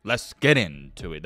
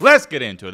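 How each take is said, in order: First: Said in the usual way. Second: Louder, punchier call; proper hype launch; better take. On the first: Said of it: "That was weak". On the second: Shown as a demonstration. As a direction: punch it out with energy. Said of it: "That's better".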